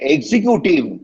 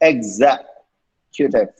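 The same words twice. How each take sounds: First: The ending lacks a clear 'tif' sound. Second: The ending has a clear 'tif' sound. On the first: The speaker calls it wrong. "don't say executive. Wrong" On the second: The speaker calls it right. "Fa fa மாதிரி end பண்ணணும். T I F மாதிரி சொல்லணும்"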